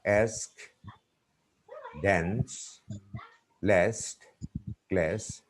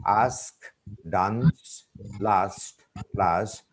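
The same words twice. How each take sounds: First: "Ask, dance, last, class" with a front "eh/ae" vowel; word list in American short a; American pronunciation. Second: "Ask, dance, last, plus" with a long "ah"; word list in British broad a; British pronunciation. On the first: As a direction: say "dance" as "dans", vowel as in "cat". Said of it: "American people pronounce in a different way". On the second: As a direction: say "dance" as "dahns", "last" as "lahst". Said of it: "It's the British pronunciation". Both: Shown as a demonstration.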